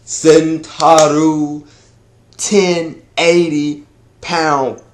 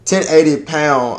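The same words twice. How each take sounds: First: TEN... EIGHTY... POUND, long held words; drawn-out announcement. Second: Said in the usual way. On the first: Shown as a demonstration. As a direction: stretch out each word of "ten eighty pound". Hyping the named attack, then redone.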